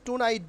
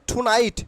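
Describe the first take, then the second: First: টুনাইট with unaspirated T; wrong-way example. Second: টুনাইট with puffed T, loud; corrected pronunciation. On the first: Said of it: "বলবো না". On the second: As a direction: stress and aspirate the T of টুনাইট. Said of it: "এটাকে বলবো". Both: Shown as a demonstration.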